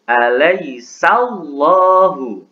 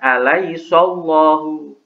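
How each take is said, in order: First: The syllable before llahu keeps a light sa sound. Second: The syllable before llahu turns into a heavy so. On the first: The speaker calls it right. "Yang betul" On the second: The speaker calls it wrong.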